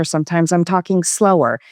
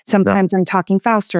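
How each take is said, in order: First: Slightly slower pace; a touch slower, to show varied delivery; talking slower. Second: Slightly quicker pace; a touch faster, to show varied delivery; talking faster. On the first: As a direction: ease the pace back a little. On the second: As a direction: pick up the pace a little. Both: Shown as a demonstration.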